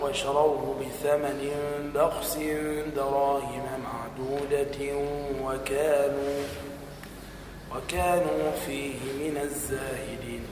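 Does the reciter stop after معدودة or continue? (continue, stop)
continue. The recitation continues through معدودة without stopping. "أو"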